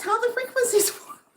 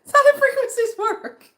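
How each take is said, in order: First: Laughing. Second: High, loud, helpless laughter through the words; a real fit of laughter; laughing hard. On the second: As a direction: crack up while repeating it. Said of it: "laugh cry". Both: Real, not acted.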